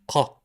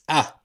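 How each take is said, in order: First: It starts with a thick, deep k sound. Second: It starts with a catch in the throat. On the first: This is the official standard pronunciation. "like a thick ka" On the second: This is how some dialects say it. "like alif and uh, hamza"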